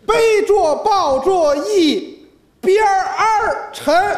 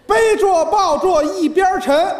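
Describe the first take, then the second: First: The word 边 is said with an r-colouring. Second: The word 边 is said without an r-colouring. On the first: "儿化音" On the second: "还是七个"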